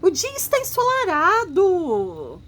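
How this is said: It is said as a lively exclamation.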